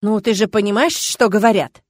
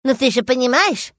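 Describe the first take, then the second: First: Reasonable. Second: Higher, louder mocking echo; mocking mimicry. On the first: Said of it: "резонно заметил Эдмонд". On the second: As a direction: mimic him to tease. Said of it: "передразнила его". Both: A narrator's reading.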